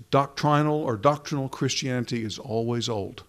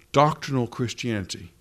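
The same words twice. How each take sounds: First: First "doctrinal" as dok-TRY-nal with a long i, second "doctrinal" as DOK-trin-al; quoting an old preacher's pun, "doctrinal" said first as dok-TRY-nal and then as DOK-trin-al; doctrinal said two ways. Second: Said in the usual way. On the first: Shown as a demonstration. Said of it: "I won't try it with a Scottish accent, but I'll just say it". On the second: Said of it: "Did you follow that?".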